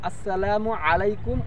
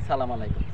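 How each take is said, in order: First: It starts with 'as' and says 'salamu' in full. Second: It starts with 'sa' and drops the 'as' and 'u'. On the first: The speaker calls it right. "সালামটা আসলে হবে কি" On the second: The speaker calls it wrong. "বিকৃত করে কি বলি"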